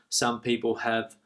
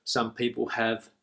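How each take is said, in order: Both takes have the same delivery.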